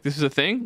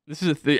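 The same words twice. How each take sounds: First: "This is a thing?" rising on "thing"; double-checking with the teacher, asking in disbelief; retold question. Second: "This is a thing," said flat with falling end; telling the teacher he found out about it, flat statement; retold statement. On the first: "thing" lifted into a question. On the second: Falling tune on "This is a thing,". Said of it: "my teacher, being like".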